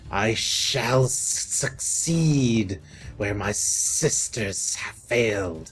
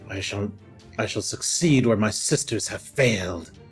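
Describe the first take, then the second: First: It is said in a hissing, snaky voice. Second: It is said in a plain, normal voice.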